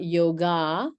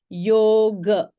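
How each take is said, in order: First: The final vowel is an open 'ah'. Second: The final vowel is a short, neutral 'uh'. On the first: The speaker calls it wrong. "It's not" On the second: The speaker calls it right. "It's an uh. It's a schwa sound. For example"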